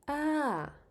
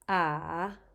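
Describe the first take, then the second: First: The pitch falls from high to low. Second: The pitch dips down and then rises. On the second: "And finally"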